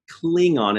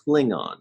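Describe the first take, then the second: First: The first vowel is a long 'ee' sound. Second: The first vowel is a short 'ih' sound. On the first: The speaker calls it wrong. "they don't have an E sound" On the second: The speaker calls it right. "They just have an I sound"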